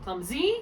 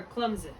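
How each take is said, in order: First: Clumsy said as clum-ZEE, rising; stress on second syllable. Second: Clumsy said as CLUM-zee, falling; stress on first syllable. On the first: Tutor asking where the accent goes, clumsy stressed on ZEE. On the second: Tutor asking where the accent goes, clumsy stressed on CLUM. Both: Shown as a demonstration. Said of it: "first syllable or the second syllable".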